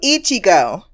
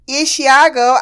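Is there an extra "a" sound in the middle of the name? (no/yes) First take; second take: no; yes. First: No extra "a" sound is inserted mid-name. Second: An extra "a" sound is inserted mid-name. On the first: The speaker calls it right. "let me get my pronunciation book out" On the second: The speaker calls it wrong. "there's no fucking A in the spelling of his name. And yet I place one there"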